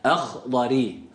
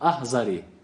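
First: The middle consonant is a heavy emphatic sound. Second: The middle consonant is a light z-like sound. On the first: The speaker calls it right. "i sesiyle bitiriyoruz kelimeyi" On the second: The speaker calls it wrong. "Ahzari doğru okuyuş olmaz"

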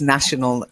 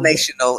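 First: The first vowel is a short 'a' sound. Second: The first vowel sounds like in 'nation'. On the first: The speaker calls it right. "It's national. Nah" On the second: The speaker calls it wrong. "Not national"

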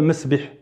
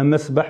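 First: The word is said off the mafʿal vowel pattern. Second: The word is said on the mafʿal vowel pattern. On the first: The speaker calls it wrong. "ما تقولش مثلا مسبح" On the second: The speaker calls it right. "مسبح مكان السباحة مفعل"

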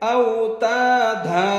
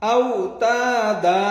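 Both takes have the same delivery.

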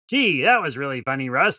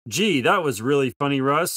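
First: It is said in a changed, odd voice. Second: It is said clearly in a normal voice.

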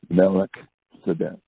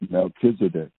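First: The name is said in a Hebrew-like form. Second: The name is said in an American English form.

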